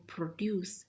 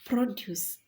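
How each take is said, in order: First: Pro-DUCE, "produce" stressed on the second syllable. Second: PRO-duce, "Produce" with a high, loud first syllable; stress on first syllable. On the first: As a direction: say "produce" as a verb, weight on the end. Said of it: "produce is a verb". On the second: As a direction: punch the start of "Produce" as a noun. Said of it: "and produce is a noun". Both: Shown as a demonstration.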